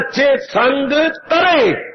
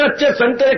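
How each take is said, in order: First: The syllables are split into two words. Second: The syllables run together as one word. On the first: Good company saves you. "थोड़ा सा शब्द शब्दों को खुला कर दे, अर्थ ही बदल गए।" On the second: The oranges are good. "मैं तो कहना अच्छे संतरे खाने वाले।"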